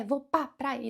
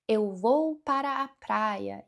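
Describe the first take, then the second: First: "Vou pra praia" run together quickly, the "Eu" and "para" swallowed; clipped short form. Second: "Eu vou para a praia" said slowly with every syllable whole; full careful form. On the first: Teacher showing how Brazilians shorten the phrase. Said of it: "ele vai encurtando, encurtando". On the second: Teacher demoing the full Portuguese phrase slowly. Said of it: "e ele vai encurtando". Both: Shown as a demonstration.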